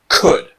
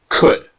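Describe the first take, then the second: No difference in how they are said.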